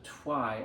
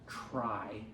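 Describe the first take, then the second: First: The R after the T sounds like a W. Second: The R after the T sounds like an R. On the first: The speaker calls it wrong. "which is more of a W H sound. So it becomes a twy" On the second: The speaker calls it right. "as opposed to try"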